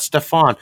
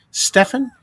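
First: Stefan with a long AH at the end; Stefan as stef-AHN. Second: Stefan with stress up front, high and questioning; Stefan as STEFF-un. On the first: Ruling out the other guy's name, Stefan as stef-AHN. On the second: Recalling the commenter's name, Stefan as STEFF-un. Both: Shown as a demonstration. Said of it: "Not Stefan".

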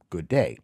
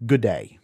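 First: Said in the usual way. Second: "good day" run together as a quick Aussie g'day; Australian g'day. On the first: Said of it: "which is short for". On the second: Shown as a demonstration. Teacher showing learners the Australian greeting "good day", said contracted as g'day. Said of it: "the Australian greeting is".

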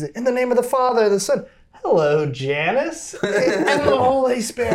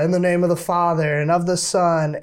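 First: Much higher, chirpy liturgical intoning; singsong mock priest with a laugh breaking in; sing-song priest blessing. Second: Lightly intoned blessing, a bit higher; mock solemn church chant; a hint of a priest reciting; priest's blessing. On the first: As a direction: bless away cheerfully while waving hello. Priest blesses while greeting a parishioner. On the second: Priest blessing the scapular, retold.

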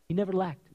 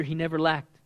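First: Never leaned on, whole line softer; stress on never. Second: Said in the usual way. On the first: Shown as a demonstration. Preacher repeats it to the church, stress on never. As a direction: press on "never", then let "lacked" fall.

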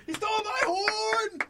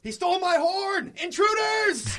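First: High, slow drawn-out yell; yelling again. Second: High, slow alarm yell; yelling for help. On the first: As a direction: call out the alarm. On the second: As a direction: shout it to raise the alarm. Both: Acted. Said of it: "I'll yell as loud as I can".

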